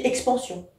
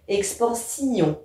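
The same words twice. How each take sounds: First: Said in the usual way. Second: "expansion" slowly, ending split as si-on; detached vowels. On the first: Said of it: "dans la vie courante, on dit". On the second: Shown as a demonstration. Teacher demonstrating diaeresis for poetry, "expansion" with detached si-on. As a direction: pull i and on apart in "expansion". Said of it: "je dois les détacher".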